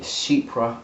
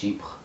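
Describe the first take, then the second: First: It is pronounced with an English accent. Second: It is pronounced with a French accent.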